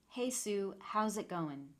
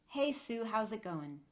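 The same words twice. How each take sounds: No difference in how they are said.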